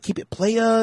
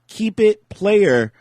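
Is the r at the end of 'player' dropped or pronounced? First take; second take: dropped; pronounced. First: The final r of player is dropped. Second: The final r of player is clearly pronounced. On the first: It sounds more street and tough. "Is that is that more thug?" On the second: It sounds careful and proper. "Am I saying that too too perfectly?"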